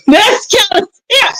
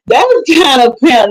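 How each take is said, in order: First: High, laughing repeat; amused, pitched-up laugh through the words. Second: Said in the usual way. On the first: Real, not acted. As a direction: laugh it out, much higher. Laughing repeat of her line.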